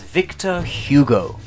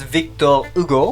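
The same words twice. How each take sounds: First: The name is said with an English pronunciation. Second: The name is said with a French pronunciation. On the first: "in anglicized form" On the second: "which I find a little bit awkward to say"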